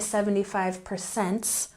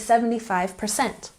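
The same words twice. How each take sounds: First: The last word ends with an added s sound. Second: The last word ends without any s sound. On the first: The speaker calls it wrong. "We don't put an S here. We don't say" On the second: The speaker calls it right. "We say"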